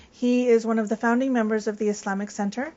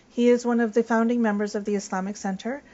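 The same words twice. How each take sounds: The two takes are said the same way.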